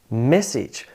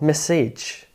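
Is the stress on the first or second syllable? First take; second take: first; second. First: The stress is on the first syllable. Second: The stress is on the second syllable. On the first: The speaker calls it right. "with emphasis on that first syllable" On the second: The speaker calls it wrong. "not message"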